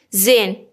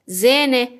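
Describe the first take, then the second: First: زین as one syllable, zen; masculine form. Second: زینه as two syllables, ze-ne; feminine form. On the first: Teacher answers as a man, زین ending on n. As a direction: stop زین on the n. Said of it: "فرض کنید که من مذکرم". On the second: Teacher answers as a woman, زینه ending in -ne. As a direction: add a final e to زینه. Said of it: "حالا من مؤنثم". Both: Shown as a demonstration.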